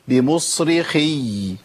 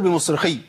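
First: The word ends with a clearly held y sound. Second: The word ends with no audible y sound. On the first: The speaker calls it right. "لازم اقول بمصرخي" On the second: The speaker calls it wrong. "اما اقول بمصرخي فين الياء؟ انت سمعت مني ياء؟"

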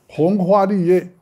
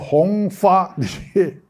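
First: The first two syllables start with h sounds. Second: The first two syllables start with f sounds. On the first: The speaker calls it right. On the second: The speaker calls it wrong.

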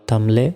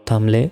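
The two takes are said the same way.

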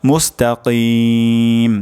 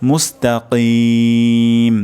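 No difference in how they are said.

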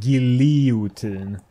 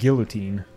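First: The word is pronounced the Swedish way, all vowels sounded. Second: The word is pronounced the English way, some vowels silent. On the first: "in Swedish it's called guillotine" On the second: "in English when you say guillotine, it's like silent vowels"

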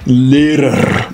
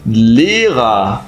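First: The final R sounds like a consonant r. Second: The final R sounds like a vowel a. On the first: The speaker calls it wrong. "não é Lehrer" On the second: The speaker calls it right. "mas sim Lehrer"

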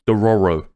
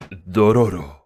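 First: It is said with a plain English accent. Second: It is said with a put-on foreign accent.

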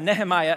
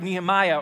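First: The name is said in the speaker's home way. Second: The name is said in the common way.

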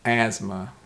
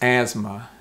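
No difference in how they are said.

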